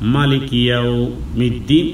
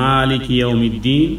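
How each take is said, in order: First: The first vowel 'ma' is kept short. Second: The first vowel 'ma' is drawn out long. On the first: This is an accepted alternative reading. "অবশ্য কেউ যদি এভাবে পড়ে ... এভাবেও হয়" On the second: This is the usual reading. "আমরা পড়ি ... মায় টান দিয়েই আদায় করি"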